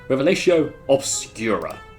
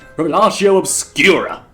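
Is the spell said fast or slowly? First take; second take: slowly; fast. First: It is said slowly and carefully. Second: It is said quickly and forcefully.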